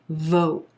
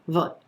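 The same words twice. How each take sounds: First: The vowel is rounded and stretched long. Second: The vowel is clipped and short. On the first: The speaker calls it right. "give this sound extra length, extra stretch" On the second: The speaker calls it wrong. "The tendency a lot of times is to pronounce this sound too short"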